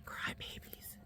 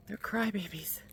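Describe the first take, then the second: First: Crybabies breathed out in a soft whisper. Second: Said in the usual way. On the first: Real, not acted. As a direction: tease the dogs under your breath. Teasing her howling dogs.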